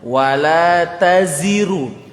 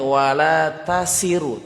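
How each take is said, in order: First: The middle consonant is a buzzing z sound. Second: The middle consonant is a hissing s sound. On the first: The speaker calls it right. "bukan sa tapi za" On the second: The speaker calls it wrong. "jangan sampai wala tasiru"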